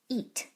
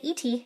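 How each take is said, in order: First: The vowel is said as a long sound. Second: The vowel is said as a short sound. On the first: The speaker calls it right. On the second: The speaker calls it wrong.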